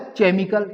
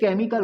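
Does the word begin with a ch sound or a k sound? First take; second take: ch sound; k sound. First: The word begins with a ch sound. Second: The word begins with a k sound. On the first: The speaker calls it wrong. "इसको चा बोल देते तो ये हो जाएगा" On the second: The speaker calls it right. "ये केमिकल होता है"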